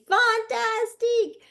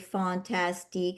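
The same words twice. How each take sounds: First: It is said with strong emotion. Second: It is said flatly, without emotion.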